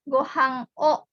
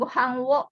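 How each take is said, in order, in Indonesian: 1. Partikel itu diucapkan sebagai 'o' biasa. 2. Partikel itu diucapkan dengan bunyi 'w'. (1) "diucapkannya boleh hanya o saja" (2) "bukan gohang wo"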